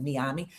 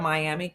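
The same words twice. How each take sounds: First: Miami said the Spanish way, mee-AH-mee; Spanish pronunciation. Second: Miami said the English way, my-AM-ee; English pronunciation. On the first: Host gives the Spanish speakers' version, soft Spanish mee-AH-mee. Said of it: "but we that speak Spanish, we know". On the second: Host shows how people usually say the city, English my-AM-ee. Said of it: "but we that speak Spanish". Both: Shown as a demonstration.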